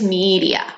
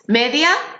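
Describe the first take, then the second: First: It is said with English-style vowels. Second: It is said with Spanish-style vowels. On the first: The speaker calls it right. "but in English it's media" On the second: The speaker calls it wrong. "in Spanish and in Catalan it's media"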